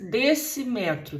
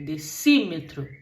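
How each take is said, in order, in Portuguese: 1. A tônica cai na sílaba 'me'. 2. A tônica cai na sílaba 'ci'. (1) "não fica desse, decímetro" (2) "fica decímetro"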